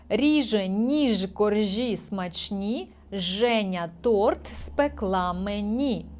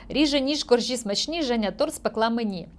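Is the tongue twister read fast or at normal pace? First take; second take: normal; fast. First: It is read at a steady, unhurried pace. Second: It is read quickly, at a rapid pace.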